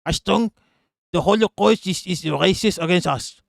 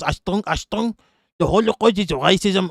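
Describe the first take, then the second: First: Mock German accent. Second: High-pitched mock Israeli accent; German impression that comes out Israeli; accidental Israeli accent. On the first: Streamer retrying a Nazi crying racism, in a German accent. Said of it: "to do a German accent". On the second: Streamer mocking a Nazi, slipping by mistake into an Israeli accent. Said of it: "why am I doing an Israeli accent".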